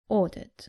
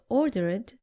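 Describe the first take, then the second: First: The ending adds no extra syllable to the word. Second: The ending is an extra syllable sounding like id. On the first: The speaker calls it right. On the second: The speaker calls it wrong.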